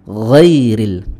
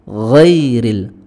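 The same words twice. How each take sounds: First: It starts with a throaty fricative sound. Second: The same.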